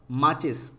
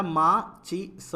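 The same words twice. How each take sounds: First: Said in the usual way. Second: माचिस split slowly as मा… चि… स; syllable by syllable. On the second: Shown as a demonstration. Teacher reads the word for learners, broken up. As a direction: sound out माचिस in separate pieces. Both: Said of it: "पहले पढ़ लेते हैं".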